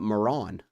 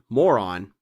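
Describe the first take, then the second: First: The name is said as 'Moran'. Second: The name sounds like the word 'moron'. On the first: The speaker calls it right. "but Moran" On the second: The speaker calls it wrong. "Not moron"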